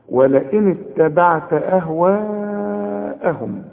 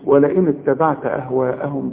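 First: The vowel before the hamza is held long. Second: The vowel before the hamza is cut short. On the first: The speaker calls it right. "المد الواجب اللي لازم تمده عند الوقف وعند الوصل اربع حركات" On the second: The speaker calls it wrong. "ما تقولش ولئن اتبعت اهواءهم بقى"

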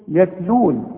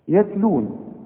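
Both takes have the same delivery.

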